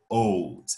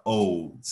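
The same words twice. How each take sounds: First: Put-on "old" drawn out as one syllable; slowly. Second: Said in the usual way. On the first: Shown as a demonstration. ("old" dito bem devagarzinho)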